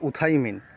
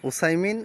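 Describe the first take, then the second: First: The middle consonant is a th sound. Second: The middle consonant is an s sound.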